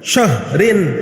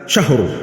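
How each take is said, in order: First: The word ends with its full vowel ending. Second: The word ends cut short, without the ending.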